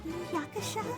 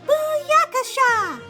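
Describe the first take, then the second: First: It is said in a faint whisper. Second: It is shouted loudly.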